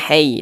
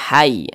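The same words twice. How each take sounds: First: The vowel leans toward an 'ei' sound. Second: The vowel is a clear 'ai' sound. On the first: The speaker calls it wrong. "Jangan sampai condong ke e, jangan. ... jangan hai" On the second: The speaker calls it right. "tapi hai"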